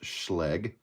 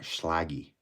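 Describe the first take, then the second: First: It is said as one short syllable. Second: It is said as two syllables ending in -y. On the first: The speaker calls it right. "they're pronounced schleg" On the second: The speaker calls it wrong. "and not schlaggy"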